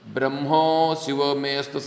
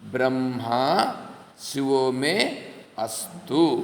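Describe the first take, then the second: First: The first word ends in 'o', 'me astu' merged. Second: The first word ends in 'a', 'me astu' separate. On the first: The speaker calls it wrong. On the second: The speaker calls it right.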